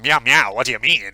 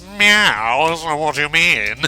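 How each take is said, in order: First: It is said in his normal voice. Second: It is said in a put-on cat voice.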